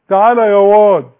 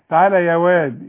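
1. الواو بتتقال تخينة وتقيلة. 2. الواو بتتقال رقيقة وخفيفة. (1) "وما قولش تعالى يا واد" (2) "لا انا اخلينا رقيق كده"

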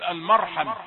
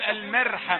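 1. صوت الميم مفخم وثقيل. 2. صوت الميم مرقق وخفيف. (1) "خلي الميم مفخمة لأن الراء مفخمة" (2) "لكن لن تقول المرحمة، مش هتقول كده"

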